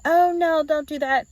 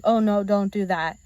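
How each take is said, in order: First: High scolding. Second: Said in the usual way. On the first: Retold or imitated. Other owner scolding dog.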